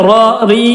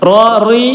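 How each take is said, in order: The two takes are said the same way.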